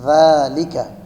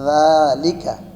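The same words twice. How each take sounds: No difference in how they are said.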